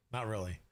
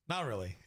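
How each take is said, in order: First: Laughing "Not really." through a chuckle. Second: Said in the usual way. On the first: Real, not acted. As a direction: brush it off with a laugh. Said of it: "laughing denial". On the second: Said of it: "repeated plainly".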